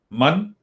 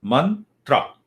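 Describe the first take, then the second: First: Mantra. said with a rising, questioning tune; rising prompt. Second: Said in the usual way. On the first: Shown as a demonstration. Teacher prompting students to repeat, Mantra. rising. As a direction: lift the end of Mantra. to prompt the class.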